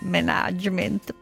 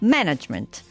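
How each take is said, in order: First: It is said with an Italian-style pronunciation. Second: It is said with an English pronunciation. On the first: The speaker calls it wrong. "Non management" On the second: The speaker calls it right. "Management, così, decisi"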